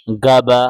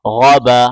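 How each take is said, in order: First: गबा clipped short, with no full ग़ौ sound at the start; the mistake the students must avoid; wrong reading. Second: गौबा with a full throaty ग़ at the start; the right way after the wrong one; correct reading. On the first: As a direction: demonstrate the wrong, flattened गबा. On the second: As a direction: give गौबा its proper guttural opening. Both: Shown as a demonstration. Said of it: "इस तरह बिल्कुल नहीं पढ़ना है".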